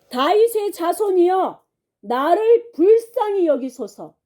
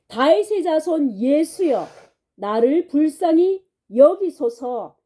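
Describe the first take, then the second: First: Higher, stronger pleading cry for mercy; louder retold cry. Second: Mild mock cry for mercy, slightly raised; retold cry out. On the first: Blind man crying louder to Jesus despite the crowd, pleading shout. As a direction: cry out harder, with everything left. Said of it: "이 사람이 더 크게 소리 질렀죠". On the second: Blind man begging Jesus from roadside, mild raised cry. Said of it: "큰 소리로 그렇게 외쳤다".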